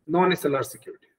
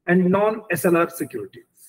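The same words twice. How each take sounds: First: Said in the usual way. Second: And non S L R securities, drawn out word by word; slow stressed term. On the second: Shown as a demonstration. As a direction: spell out non S L R securities slowly, as a key term. (non S L R securities धीरे-धीरे, हर शब्द पर ज़ोर देकर)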